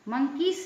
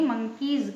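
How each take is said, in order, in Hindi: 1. यह शब्द एस की ध्वनि से खत्म होता है। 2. यह शब्द ज़ेड की ध्वनि से खत्म होता है। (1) "मंकीज नहीं कहेंगे" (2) "मंकीज कहेंगे"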